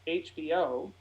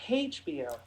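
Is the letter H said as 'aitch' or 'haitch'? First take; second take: aitch; haitch. First: The H is said without an initial h sound. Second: The H is said with an initial h sound. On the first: The speaker calls it right. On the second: The speaker calls it wrong.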